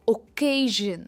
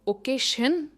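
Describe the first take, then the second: First: The middle consonant is a zh sound. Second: The middle consonant is an sh sound. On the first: The speaker calls it right. "इनमें जन sound आता है" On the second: The speaker calls it wrong. "इनमें शन नहीं आता है"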